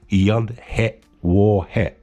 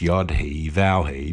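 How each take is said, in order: First: The third letter name starts with a W sound. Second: The third letter name starts with a V sound. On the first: It is the Hebrew pronunciation. "the Hebrew pronunciation" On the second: It is easier for an English speaker. "I prefer to pronounce these as"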